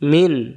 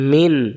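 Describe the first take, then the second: Both takes have the same delivery.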